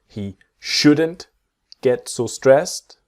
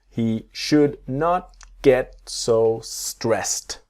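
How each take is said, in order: First: It is contracted, with the final T silent. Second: Should and not are said as two full words.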